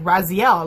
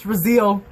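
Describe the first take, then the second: First: The name's ending rhymes with Castiel. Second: The name's ending does not rhyme with Castiel. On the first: The speaker calls it wrong. "I'm like Raziel, like Castiel" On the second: The speaker calls it right. "but no, it's Raziel"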